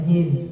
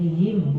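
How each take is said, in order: First: The vowel sounds broad and heavy. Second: The vowel sounds slim and light. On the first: The speaker calls it wrong. "bukan him" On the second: The speaker calls it right. "Jadi him bukan"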